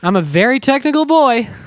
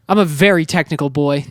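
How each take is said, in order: First: It is said in a lighter, playful tone. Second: It is said in a serious tone.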